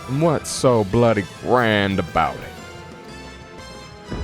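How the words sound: It is spoken in a southern accent.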